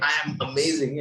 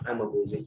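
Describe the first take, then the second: First: The voice sounds more energetic and confident. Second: The voice sounds flat and lacking confidence. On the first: "there's a slight shift in in momentum, in the voice" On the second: "if I keep my shoulders normal, drooped and all"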